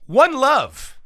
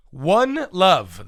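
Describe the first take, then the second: First: One Love announced high and loud; big announcement. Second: Said in the usual way. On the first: Shown as a demonstration. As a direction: reveal One Love like a game-show host. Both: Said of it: "One Love, the Modest Yahoo song".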